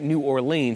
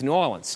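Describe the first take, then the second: First: The city name is said the outsider way. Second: The city name is said the local way. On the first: The speaker is not from the city. The speaker calls it wrong. "you don't say New Orleans" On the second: The speaker is from the city. The speaker calls it right. "it's New Orleans"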